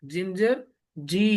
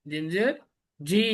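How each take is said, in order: Both takes have the same delivery.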